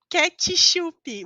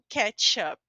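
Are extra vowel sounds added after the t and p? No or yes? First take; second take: yes; no. First: Extra i vowels follow the t and p. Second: No extra vowels follow the t and p. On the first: The speaker calls it right. "eu vou colocar um i aqui e um i aqui" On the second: The speaker calls it wrong. "você não pode falar como ketchup"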